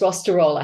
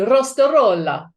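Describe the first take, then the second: First: It is said with an Australian English pronunciation. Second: It is said with an Italian pronunciation. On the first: "we in Australia, I grew up in Australia, it's Rostarola" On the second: "I'm half Italian, so otherwise it would be Rostarola"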